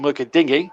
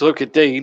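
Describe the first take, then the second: First: The surname is said with two syllables. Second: The surname is said with one syllable. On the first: The speaker calls it wrong. "some commentators still call him Luca Dingy" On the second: The speaker calls it right. "Luca Dean is the correct pronunciation"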